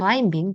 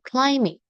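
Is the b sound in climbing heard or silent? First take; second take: heard; silent. First: The b sound is pronounced after the m. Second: The b sound is silent after the m. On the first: The speaker calls it wrong. "Bukan climbing" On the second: The speaker calls it right. "Itu kalian silent aja ya"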